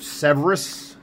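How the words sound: It is said with an American accent. "What would we Americans say?"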